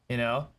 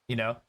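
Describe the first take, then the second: No difference in how they are said.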